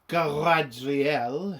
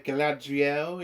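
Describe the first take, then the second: First: The name is pronounced in an affected, exaggerated way. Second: The name is pronounced in a plain, ordinary way.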